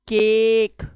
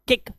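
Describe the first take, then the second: First: The vowel is said long. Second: The vowel is said short. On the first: The speaker calls it right. "Long vowel sound" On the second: The speaker calls it wrong. "ऐसा नहीं है"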